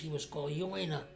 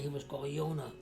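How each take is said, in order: First: The name has a Y sound and an 'oi'. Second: The name has a Y sound and plain 'o'. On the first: This is the Yiddish form of the name. "But in Yiddish, he was called Joina" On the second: This is the German form of the name. "in public school in Germany, he was called Jonah"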